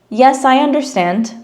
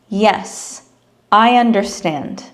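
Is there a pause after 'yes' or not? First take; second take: no pause; pause. First: There is no pause after 'yes'. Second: There is a short pause after 'yes'.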